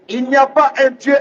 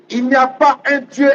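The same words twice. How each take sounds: The two takes are said the same way.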